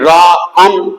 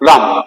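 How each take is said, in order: First: The word is broken into two separate parts. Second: The word is said in one smooth beat. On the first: The speaker calls it wrong. "আমি রা আম ... বলি না" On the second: The speaker calls it right. "যেটা একবারে উচ্চারণ হচ্ছে মনো এর ভাঙতে হয় না"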